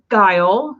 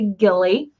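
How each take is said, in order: First: The name is said as one syllable, like 'guile'. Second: The name is said as two syllables, like 'gilly'. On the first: This is how the family says it. The speaker calls it right. "You pronounce it Guile" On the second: This is how many other people say it. The speaker calls it wrong. "A lot of people say Gilly"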